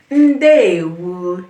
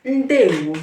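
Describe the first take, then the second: First: "Ndewo" drawn out slowly and louder; slow model pronunciation. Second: Said in the usual way. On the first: Shown as a demonstration. Teacher repeats the greeting for beginners, "Ndewo" slow and loud. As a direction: stretch both syllables of "Ndewo" for learners. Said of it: "One more time". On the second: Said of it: "Say it with me".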